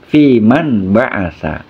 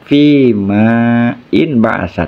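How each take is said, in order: First: The words are joined, with the 'in' vowel dropped. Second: The words are separate, with the 'in' vowel kept.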